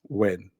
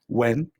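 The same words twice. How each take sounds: First: The pitch falls through the word. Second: The pitch stays level throughout. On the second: "tono neutro"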